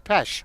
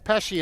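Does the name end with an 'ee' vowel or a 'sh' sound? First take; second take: sh sound; ee vowel. First: The name ends with a plain 'sh' sound. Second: The name ends with an added 'ee' vowel. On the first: The speaker calls it right. "It's Pesh" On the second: The speaker calls it wrong. "I'm calling her Pesci, and that's wrong"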